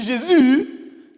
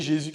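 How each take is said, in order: First: JÉSUS cried high and long; loud church cry. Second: Said in the usual way. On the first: Shown as a demonstration. Teacher contrasting ways of saying Jésus, high long shout. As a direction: shout Jésus with a drawn-out last vowel. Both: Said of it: "c'est pas pareil".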